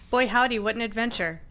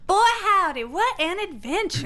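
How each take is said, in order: First: It is said without Omi's character voice. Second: It is said in Omi's character voice.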